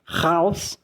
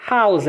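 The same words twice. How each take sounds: First: "Haus" begun as "raus", rasped in the throat; guttural R. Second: "Haus" with a light breathed H; clean H. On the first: Teacher contrasting house and out, guttural R. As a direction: scrape the first sound of "Haus". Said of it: "ele é gutural". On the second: Teacher contrasting house and out, clean H. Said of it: "H, um R limpo". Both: Shown as a demonstration.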